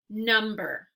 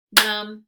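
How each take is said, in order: First: Said in the usual way. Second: Number as loud "num... ber"; Number with a clear gap between syllables; clapped-out syllables. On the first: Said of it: "only gonna say the word". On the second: Shown as a demonstration. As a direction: break Number into two separate beats. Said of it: "clap it out into syllables".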